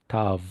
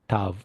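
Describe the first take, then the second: First: The word begins with a t sound. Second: The word begins with a t sound.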